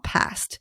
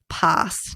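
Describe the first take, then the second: First: It is said a non-Australian way. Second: It is said the Australian way. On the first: "not past" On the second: "we say past"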